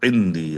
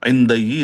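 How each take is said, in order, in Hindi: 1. शब्द का अंत एक ही 'dee' ध्वनि से होता है। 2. शब्द का अंत एक अलग 'da-ee' ध्वनि से होता है। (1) "देखिए प्रोनाउंसिएशन में थोड़ा चेंज हो गया देर की वजह से" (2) "इंदई नहीं पढ़ते"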